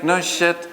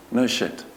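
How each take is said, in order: First: Higher, laughing through the words. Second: Said in the usual way. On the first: Real, not acted. Speaker repeats the sarcastic punchline to the audience, laughing. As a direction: let the laugh break into the line.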